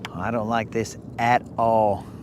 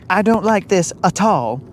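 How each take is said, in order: First: It is said in the speaker's ordinary accent. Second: It is said in a put-on Southern belle accent.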